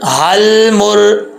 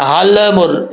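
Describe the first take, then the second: First: Slow हल मुर with the lam held, no bounce; correct way. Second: हल मुर with the lam bounced in qalqala; wrong way. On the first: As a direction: keep the tongue on the lam of हल. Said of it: "लाम का मखरज सही तरीके से अदा होगा।". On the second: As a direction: release the lam of हल with an echo. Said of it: "ये गलत है।". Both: Shown as a demonstration.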